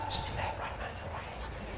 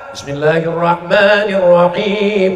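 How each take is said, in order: First: It is said quietly, almost whispered. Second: It is said loudly and clearly aloud.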